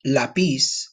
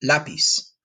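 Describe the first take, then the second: First: "lápiz" stressed on the final syllable, la-PIZ; "lápiz" mis-stressed as la-PIZ; wrong-syllable stress. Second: "lápiz" stressed on the first syllable, LA-piz; "lápiz" nice and quick, stress up front. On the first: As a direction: lean on the second syllable of "lápiz". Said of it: "notice the little accent over the A". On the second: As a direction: hit the A in "lápiz", then let go. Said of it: "Emphasis on the A". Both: Shown as a demonstration.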